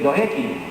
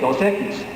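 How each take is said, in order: First: The final S sounds are dropped. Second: The final S sounds are clearly pronounced. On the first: This is how it is said in Nicaragua. "they say Dos Equis. Se come la X, la S" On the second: This is how it is said in Mexico. "the Mexicans will say Dos Equis"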